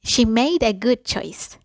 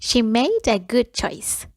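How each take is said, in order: Both takes have the same delivery.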